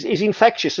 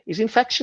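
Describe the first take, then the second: First: Said in the usual way. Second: High squeaky Scouse take on 'He's infectious'; Scouse accent. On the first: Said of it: "he's infectious, isn't he?". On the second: Retold or imitated. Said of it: "Did you perfect that Scouse impression".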